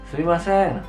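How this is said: It is said with a Japanese accent. "kalau orang Jepang sumimasen"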